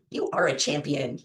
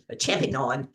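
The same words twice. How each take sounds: First: Said in the usual way. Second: "champion" twisted to end in a full "-non"; playful mispronunciation. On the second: Pretend. Repeats word with playful twist.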